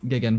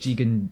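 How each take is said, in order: First: The name is said with altered sounds. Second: The name is said in its usual form. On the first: This is a running joke in the dub. The speaker calls it wrong. "mispronounces the names" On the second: This is the character's real name. The speaker calls it right. "he calls Jigen"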